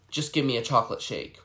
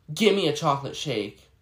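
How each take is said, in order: First: Demanding. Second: Imitating a rude customer, with a louder stressed "Give"; a bossy demand, "Give" hit hard and falling; mocking rude customer. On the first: Retold or imitated. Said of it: "she was like". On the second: Server mimics the customer demanding a chocolate shake. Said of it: "I hate when customers say".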